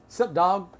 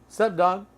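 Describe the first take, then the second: No difference in how they are said.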